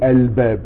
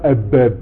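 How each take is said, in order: First: The l is clearly heard before the b. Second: The l merges into the b sound. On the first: The speaker calls it right. "Là le Lem il se prononce" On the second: The speaker calls it wrong. "on ne dit pas El-Bab"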